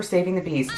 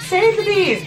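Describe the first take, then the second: First: Said in the usual way. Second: High, loud squealed slogan; mock rallying cry. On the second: Joking aside about being all for bees, mock rallying cry. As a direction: squeal it out like a playful campaigner.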